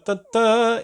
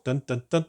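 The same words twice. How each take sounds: First: Sung, higher, louder closing "dun, dun"; sung, rising fanfare. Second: Sung, mock fanfare. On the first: Pretend. Sung, unveiling the canvas to viewers, a hammed-up rising fanfare. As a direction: hum the drumroll up to the big reveal. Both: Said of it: "shall we do the reveal".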